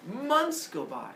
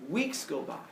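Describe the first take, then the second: First: Months go by said higher and slow, stretched out; storyteller stretching Months go by, higher and slow; drawn-out Months. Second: Said in the usual way. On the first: A narrator's reading. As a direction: stretch Months go by to feel the wait.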